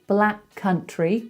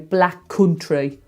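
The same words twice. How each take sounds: First: It is said in a standard accent. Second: It is said in a Black Country accent.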